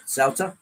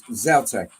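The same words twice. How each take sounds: First: "Zauter" as a second German variant; alternative German pronunciation. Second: "Zauter" said the German way; German pronunciation. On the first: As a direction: offer "Zauter" as another German reading. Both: Shown as a demonstration. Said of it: "the Germans pronounce as".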